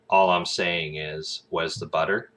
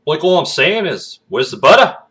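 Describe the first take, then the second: First: Said in the usual way. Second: Loud, high Aussie with lifted endings; Australian accent. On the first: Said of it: "then you change it into Australian". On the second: Shown as a demonstration. Demonstrating the inflection tip, loud high Australian accent. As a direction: hit a broad Aussie, pitch up at the end. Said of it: "change it into Australian".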